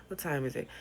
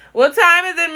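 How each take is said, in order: First: Said in the usual way. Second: Loud high call. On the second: Real, not acted. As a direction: shout the question to someone far off. Calling out.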